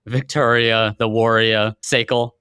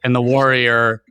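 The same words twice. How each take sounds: First: Light Boston accent, warrior as wor-ee-ah; Boston accent with the r dropped. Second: Said in the usual way. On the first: Shown as a demonstration. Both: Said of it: "if I say it with a Boston accent".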